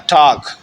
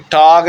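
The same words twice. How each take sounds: First: ٹاک ending on a voiceless k; corrected ٹاک with a k ending; final g as k. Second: ٹاگ with a voiced g at the end; wrong final g. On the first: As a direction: say ٹاک louder, closing hard on k, not g. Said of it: "یہ کے کی آواز دے گا". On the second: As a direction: say ٹاگ ending on a voiced g, as the mistake. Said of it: "یہ ٹاگ نہیں ہوگا". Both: Shown as a demonstration.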